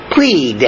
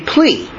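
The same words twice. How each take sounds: First: "Plead" with a crisp final d; right pronunciation. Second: "plea" with no final d sound; wrong pronunciation. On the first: Preacher correcting the word: "Plead" with a clear final d. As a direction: land the d at the end of "Plead". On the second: Preacher showing the wrong way to say it: "plea" with no final d. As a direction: say "plea" and drop the d. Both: Shown as a demonstration. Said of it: "When you say plead".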